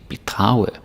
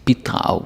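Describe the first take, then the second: First: The stress is on the second syllable. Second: The stress is on the first syllable. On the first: It sounds like a word meaning to defraud. The speaker calls it wrong. "then it sounds like bedrage" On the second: To contribute. The speaker calls it right. "you gotta say bidrage with the stress on B"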